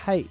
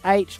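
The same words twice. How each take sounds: First: The letter name begins with an h sound. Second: The letter name begins without an h sound. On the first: The speaker calls it wrong. "not H" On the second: The speaker calls it right. "You're right. H. It's H"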